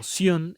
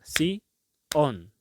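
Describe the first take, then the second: First: It is said together as one syllable. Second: It is split into two separate syllables. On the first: The speaker calls it right. "como sion están en una misma pronunciación" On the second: The speaker calls it wrong. "Yo no puedo decir sion en dos palabras porque miren cómo me va a sonar"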